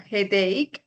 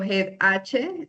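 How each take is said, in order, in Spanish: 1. El final suena como 'ake', con k. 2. El final suena como la letra H. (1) "sino headache" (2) "yo no digo head H"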